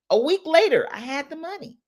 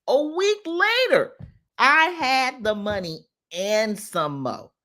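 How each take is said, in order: First: Excited reveal. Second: High-pitched, drawn-out LATER, slow word by word; emphatic repeat. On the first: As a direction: announce it brightly, then drop the volume. First telling of the quick result. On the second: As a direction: stretch out each word of the boast. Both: Real, not acted.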